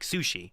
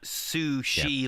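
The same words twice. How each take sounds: First: The word begins with a ts sound. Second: The word begins with a plain s sound. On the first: It is the fish's actual name. The speaker calls it right. "There's a T so in there" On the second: It is the ordinary food word. The speaker calls it wrong. "not sushi"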